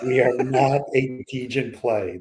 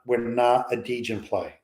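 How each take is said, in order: First: It is said louder, with more force. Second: It is said at normal, quieter volume.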